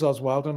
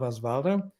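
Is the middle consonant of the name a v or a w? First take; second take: w; v. First: The middle consonant is a w sound. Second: The middle consonant is a v sound. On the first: The speaker calls it right. "it is Oswaldo" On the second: The speaker calls it wrong. "not Osvaldo"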